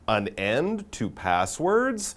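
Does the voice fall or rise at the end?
rise. The voice rises at the end like a question. It is asking a question. The speaker calls it right. "our title is really a question"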